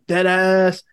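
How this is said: It sounds annoyed and frustrated.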